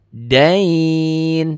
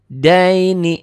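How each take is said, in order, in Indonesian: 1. Kata itu berhenti di konsonan, vokalnya dipanjangkan. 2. Kata itu dibaca terus, berakhir dengan vokal.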